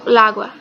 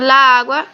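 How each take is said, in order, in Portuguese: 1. Os dois sons de 'a' se fundem em um só, rapidamente. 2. Os dois sons de 'a' são pronunciados separadamente. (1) "se unem essas duas As, e aí eu digo lágua, falando rápido" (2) "se eu digo la água"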